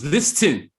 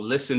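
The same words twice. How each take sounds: First: The t in the middle is pronounced. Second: The t in the middle is silent.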